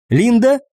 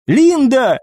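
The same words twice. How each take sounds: First: High, rising questioning call; worried query. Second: Alarmed cry. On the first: Eva notices the healer not responding, worried. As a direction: call the name as an anxious question, pitch climbing. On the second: Eva calls the unconscious healer, alarmed. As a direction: cry out the name, pitch held high then falling. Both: A narrator's reading.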